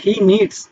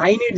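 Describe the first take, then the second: First: "needs" with an audible s at the end; "needs" closing on a clear s; final S sounded. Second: Said in the usual way. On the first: Shown as a demonstration. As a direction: add an S sound after the d in "needs". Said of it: "এস এর মতো লাস্টে উচ্চারণ করব". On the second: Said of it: "নিডের সাথে এসটা add".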